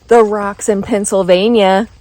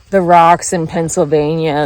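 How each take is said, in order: First: It is said with an amazed, impressed tone. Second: It is said with a disgusted, complaining tone. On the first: The rocks are remarkably varied. The speaker calls it right. "I think it should be, oh my God" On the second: The rocks are the worst part. The speaker calls it wrong. "everyone's like, ugh"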